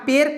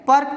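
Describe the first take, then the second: First: The vowel sounds like 'eh'. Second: The vowel sounds like 'uh'. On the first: The speaker calls it wrong. "यहाँ पे नहीं पढ़ेंगे" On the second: The speaker calls it right. "पर्क पढ़ेंगे"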